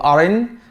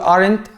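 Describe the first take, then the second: First: The final t sound is left out. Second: The final t sound is pronounced.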